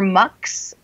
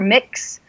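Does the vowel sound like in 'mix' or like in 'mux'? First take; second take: mux; mix. First: The vowel is the short u of 'mux'. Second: The vowel is the short i of 'mix'. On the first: "you can pronounce it either mix or mux" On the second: "you can pronounce it either mix or mux"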